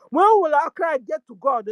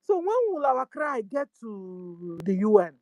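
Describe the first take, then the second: First: The same question pushed out louder; louder plea. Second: Said in the usual way. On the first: Real, not acted. Activist appealing to God, louder plea. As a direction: raise the voice and call it up to God.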